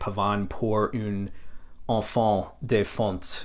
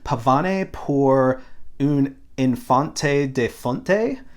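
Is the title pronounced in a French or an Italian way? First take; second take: French; Italian. First: The title is pronounced with a French-style accent. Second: The title is pronounced with an Italian-style accent. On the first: "I want to pronounce it the French way" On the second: "how an Italian would pronounce this. So I'm going to do my best"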